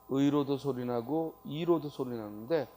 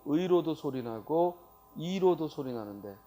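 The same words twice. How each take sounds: The two takes are said the same way.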